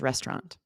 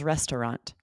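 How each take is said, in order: First: The word is said with two syllables. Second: The word is said with three syllables. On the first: "Eliminating that second syllable, making it two syllables" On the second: "sometimes with three syllables"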